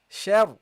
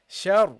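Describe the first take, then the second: Both takes have the same delivery.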